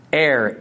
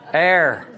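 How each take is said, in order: First: Error said the Missouri way, "air" with the r dropped; short falling Missouri "Error"; Missouri accent. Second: Error said short and clipped, Ohio Buckeye style, one syllable "err"; a quick Ohio "Error" ending in the r; Buckeye pronunciation. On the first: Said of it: "saying it in my Missouri accent". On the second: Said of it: "How does a Buckeye say it". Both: Shown as a demonstration.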